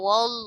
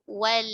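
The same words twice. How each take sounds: First: The L is pronounced heavy and thick. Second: The L is pronounced light and thin. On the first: The speaker calls it wrong. "jangan sampai wal" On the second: The speaker calls it right. "Tapi wal tipis"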